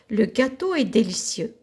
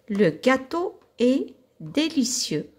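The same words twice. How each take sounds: First: The sentence is read at a faster pace. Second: The sentence is read at a slower pace.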